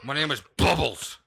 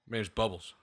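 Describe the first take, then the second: First: It is said in a fierce, angry voice. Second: It is said in a cool gangster style. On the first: The name is made to sound fearsome. "Just sound as angry as you can" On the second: The speaker acts like a tough gangster. "Or you could just gangster it"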